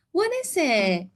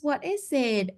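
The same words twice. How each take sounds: First: Prompting question. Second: Said in the usual way. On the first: Shown as a demonstration. Therapist prompting child with a bright question. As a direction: ask the child brightly, leaning on "What". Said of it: "We can actually say". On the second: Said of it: "we can ask the question first".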